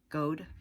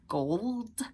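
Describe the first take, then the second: First: The L sound in the word is dropped. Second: The L sound in the word is pronounced. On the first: The speaker calls it wrong. "when people don't say gold correctly. They say like gold" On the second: The speaker calls it right. "because it's gold. There's an L in it"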